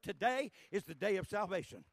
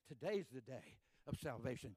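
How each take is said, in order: First: Louder, insistent. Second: Said in the usual way. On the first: Shown as a demonstration. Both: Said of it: "that's a true statement".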